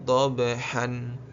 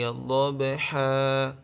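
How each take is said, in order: First: The word ends in a short vowel plus n. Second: The word ends in a long a vowel. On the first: The speaker calls it wrong. "jangan dibaca dhabhan ya" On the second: The speaker calls it right. "dibaca dua harokat ya"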